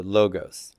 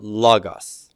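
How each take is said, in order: First: "logos" with long round O sounds, loh-gohs; modern Greek logos. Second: "logos" with a short flat ah-o, lah-gahs; Erasmian logos. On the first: Teacher showing students how Greeks say it, long O. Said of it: "in modern Greek, they pronounce this as an O sound". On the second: Teacher contrasting pronunciations for students, lah-gahs. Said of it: "I pronounce that logos". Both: Shown as a demonstration.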